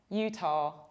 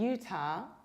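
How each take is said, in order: First: The word ends in an 'oh' vowel. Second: The word ends in a long 'ah' vowel. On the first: "with final O" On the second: "with long A at the end"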